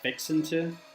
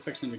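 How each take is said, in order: First: It is said slowly and drawn out. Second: It is said quickly, the words run together. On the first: "I don't say it like fixin' to" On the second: "It's very quick"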